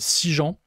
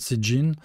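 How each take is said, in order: First: The name is said with French pronunciation. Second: The name is said with American pronunciation. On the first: "je vais prononcer à la française" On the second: "comment ça se prononce du côté euh, américain"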